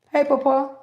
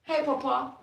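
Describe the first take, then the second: First: Calling out loud to Papa; loud call to a spirit. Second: Said in the usual way. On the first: Real, not acted. Calling out to her grandfather's spirit, a loud call.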